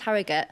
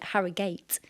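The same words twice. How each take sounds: First: It is said plainly, with a light last syllable. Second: It is said posh, with a drawn-out last syllable. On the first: This is how locals say it. The speaker calls it right. "It's just Harrogate" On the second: The speaker is mocking how posh people say it. The speaker calls it wrong. "really posh people call it Har- Harrogate"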